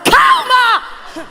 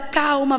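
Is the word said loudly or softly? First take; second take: loudly; softly. First: The word is said loudly and forcefully. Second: The word is said softly and calmly. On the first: Showing more agitation to steady the other. The speaker calls it right. "aí ela, ela se estabiliza para ouvir" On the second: Trying to soothe by being calmer. The speaker calls it wrong. "Ela vai ficar mais nervosa"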